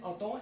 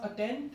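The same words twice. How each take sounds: First: It is pronounced the French way, with a nasal vowel. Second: It is pronounced like the English word attend. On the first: The speaker calls it right. "in French the pronunciation is attend" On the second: The speaker calls it wrong. "Don't pronounce it as attend"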